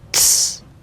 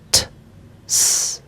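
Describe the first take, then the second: First: The t and s blend into one sound. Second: The t and s are said apart with a gap. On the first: "step by step start to combine them" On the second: "pronounce them in a separate way. That would sound like this"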